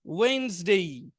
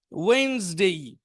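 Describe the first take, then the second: No difference in how they are said.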